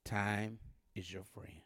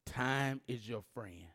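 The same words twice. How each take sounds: First: Slow whisper of time is your friend. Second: Slow, spaced out, time is your friend; slow and deliberate. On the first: Preacher turning to one side of the room, whispered. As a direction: hush it to this side. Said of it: "I'm gonna say it on this side". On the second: Preacher addressing the middle section, slow and deliberate. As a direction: lay each word down slowly. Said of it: "I'm gonna say it in the middle". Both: Shown as a demonstration.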